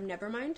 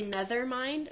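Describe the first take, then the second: First: Said in the usual way. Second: "nether mind" with th in place of v; childhood mispronunciation. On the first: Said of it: "instead of". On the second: Retold or imitated. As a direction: say "nether mind", rising at the end. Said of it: "I used to say".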